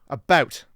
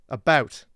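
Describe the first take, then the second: The two takes are said the same way.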